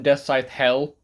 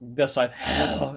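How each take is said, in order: First: It is said in a plain, ordinary voice. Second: It is said in a dramatic, brooding voice.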